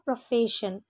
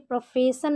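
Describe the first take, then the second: First: The consonant before -ion is a sh sound. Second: The consonant before -ion is an s sound. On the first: The speaker calls it right. "एस को श pronounce करेंगे, तो इसका correct pronunciation होगा" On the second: The speaker calls it wrong. "इसे प्रोफेशन नहीं पढ़ेंगे"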